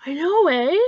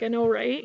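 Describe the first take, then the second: First: Loud, lifted Canadian agreement with a tag "eh"; hearty Canadian "I know, eh?". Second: Said in the usual way. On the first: Acted. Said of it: "someone says something agreeable and you're like". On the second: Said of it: "most people say".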